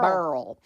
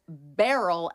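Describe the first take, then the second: First: The name is said with one syllable. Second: The name is said with two syllables. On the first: This is how some locals say the name. The speaker calls it wrong. "crazy people would say, no, it's Burl" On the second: This is the officially decided pronunciation. The speaker calls it right. "the World Meteorological Society ... tells us what the pronunciation is"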